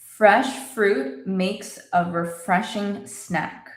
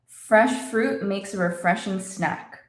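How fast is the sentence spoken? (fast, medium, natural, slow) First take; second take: medium; fast. First: The sentence is spoken a little faster. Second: The sentence is spoken faster still. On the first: "A little faster" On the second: "And a little faster"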